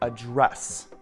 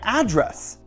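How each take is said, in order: First: The stress is on the second syllable. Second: The stress is on the first syllable. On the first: It is used as a verb meaning to deal with something. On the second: It is used as a noun meaning a location.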